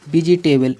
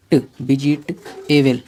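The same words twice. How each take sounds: First: Said in the usual way. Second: "बी जी ट एबल" slowly, with "ट" cut off alone; slow piece-by-piece "बी जी ट एबल"; sounded out in parts. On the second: Shown as a demonstration. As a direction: pause between each part of "बी जी ट एबल". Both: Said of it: "इसे हम क्या पढ़ेंगे".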